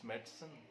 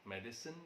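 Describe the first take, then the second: First: The unstressed vowel is left out. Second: The unstressed vowel is pronounced in full.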